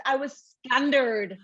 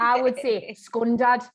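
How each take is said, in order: First: Northern Irish scundered. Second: Scundad with a short Geordie ending, said slowly. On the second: Geordie host showing her own version, scundad. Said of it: "which is awful". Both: Shown as a demonstration.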